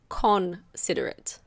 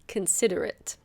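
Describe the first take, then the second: First: The O is said as a full vowel. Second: The O is reduced to a schwa. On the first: The speaker calls it wrong. "It's not considerate" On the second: The speaker calls it right. "The O is a schwa, so it's considerate"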